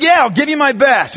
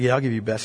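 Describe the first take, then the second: First: High, forceful answer back; emphatic commitment. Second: Low, soft, noncommittal agreement; half-hearted reply. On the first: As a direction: commit loudly, as if pushed to it. Player finally answers with force. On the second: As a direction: agree without real commitment. Half-committed player answers his coach. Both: Retold or imitated.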